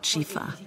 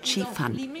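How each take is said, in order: First: The word ends on a vowel, without n. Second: The word ends with a clear final n. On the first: This is the local Lima version of the word. "Sie verschluckten praktisch das Fan" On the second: This is the original Chinese call to eat. "Zur Essenszeit hieß es bei den Chinesen Chifan"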